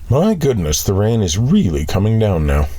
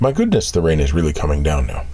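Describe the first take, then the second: First: It is said with real, heartfelt feeling. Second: It is said flatly, without much feeling.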